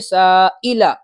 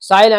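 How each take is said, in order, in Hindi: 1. बीच का हमज़ा साफ़ निकला है। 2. बीच का हमज़ा कमज़ोर है या गायब है। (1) "ये हमजा भी निकलना चाहिए" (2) "साइला नहीं"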